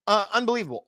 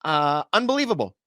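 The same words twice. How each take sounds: First: Unbelievable said again pitched higher; higher repeat. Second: Said in the usual way. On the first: Shown as a demonstration. Host repeating his disbelief at the oil detour, higher.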